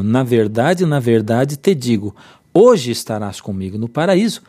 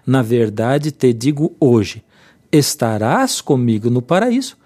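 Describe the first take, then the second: First: The pause comes before hoje, grouping it with estarás. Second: The pause comes after hoje, grouping it with digo.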